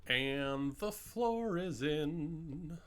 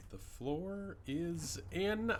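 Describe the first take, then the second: First: Drawn out. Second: Excited. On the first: Slow drawn-out announcement. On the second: Repeats announcement, excited. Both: Real, not acted.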